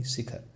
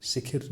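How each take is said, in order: First: शिखर ending in khar; correct pronunciation. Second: शिखिर with i twice; mispronunciation demo. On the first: Teacher corrects the word, शिखर pronounced si-khar. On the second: Teacher shows the mistake, शिखिर mispronounced as si-khir. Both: Shown as a demonstration. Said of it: "शिखिर नहीं".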